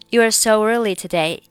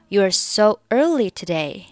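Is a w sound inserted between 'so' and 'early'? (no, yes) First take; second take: yes; no. First: A w glide links 'so' into 'early'. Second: No w glide comes between 'so' and 'early'. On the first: "所以中间会加上一个w 的半元音" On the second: "你可以选择不加这个音"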